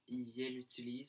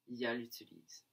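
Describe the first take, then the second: First: The pronoun is said with an e vowel. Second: The pronoun is said with an a vowel. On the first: "à la place de dire yel utilise" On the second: "on va dire yal utilise"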